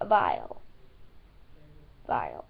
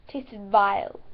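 First: Mock deep vile. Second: Said in the usual way. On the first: Deep mocking Vile quoting viewers' verdict. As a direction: drop way down and stretch Vile like the commenters. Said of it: "You guys thought it tasted vile". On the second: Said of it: "You guys thought it".

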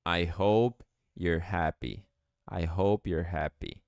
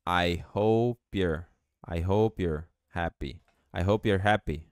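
First: I hope you're happy, hope stressed and slow; slow model answer. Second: I hope you're happy with hope-you're joined, silent E; linking P to your. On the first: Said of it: "Como fica em inglês". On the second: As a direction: join the P straight into your. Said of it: "esse P pode juntar com your". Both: Shown as a demonstration.

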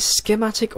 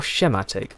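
First: "schematic" with a hard sk start; hard sk pronunciation. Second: "schematic" with a soft sh start; soft sh pronunciation. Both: Shown as a demonstration. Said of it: "us Brits say schedule and Americans say".

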